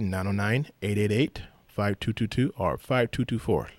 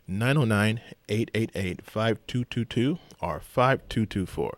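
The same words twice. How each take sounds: First: The number is said at a faster pace. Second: The number is said at a slower pace.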